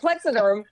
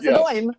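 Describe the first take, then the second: First: It is said in a West Coast accent. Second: It is said in a New York accent.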